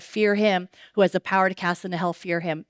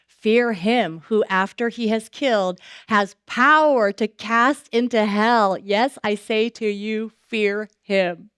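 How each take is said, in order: First: Fast, offhand run through "Fear him who has the power"; brisk quotation, no weight; quick recap. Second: Slow, weighty reading, leaning on "Fear him"; drawn-out, grave "Fear him who", "power" stressed; slow solemn scripture. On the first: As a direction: rattle off the verse in passing. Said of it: "Jesus just said". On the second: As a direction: read it slowly like a warning from the pulpit. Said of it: "what Luke twelve four says". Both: Shown as a demonstration.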